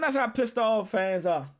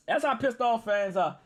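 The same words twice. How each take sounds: First: "That's" diberi tekanan; stress on that's. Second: "how" diberi tekanan; stress on how. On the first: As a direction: lean on "That's". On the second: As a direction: lean on "how". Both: Real, not acted.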